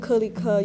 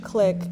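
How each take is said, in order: First: The name is said in three separate syllables. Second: The name is said as one syllable. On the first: It follows the literal localized spelling. "how I've been pronouncing it is Ke, Li, Ke" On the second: It is the original English word. "You can also pronounce it click"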